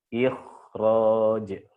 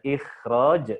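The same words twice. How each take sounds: First: The kh sound is heavy and thick. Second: The kh sound is light and thin. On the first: The speaker calls it right. "ditebalkan kho-nya" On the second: The speaker calls it wrong. "tidak dibaca ikhraj"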